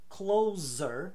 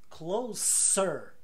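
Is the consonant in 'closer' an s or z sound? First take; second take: z; s. First: The middle consonant is a buzzing z sound. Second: The middle consonant is a hissing s sound. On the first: The speaker calls it wrong. "não se fala" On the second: The speaker calls it right. "com S"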